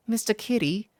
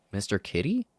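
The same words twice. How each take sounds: First: Higher curious fairy question. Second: Said in the usual way. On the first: Acted. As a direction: ask it like a tiny sprite. Fairy P recognizes name.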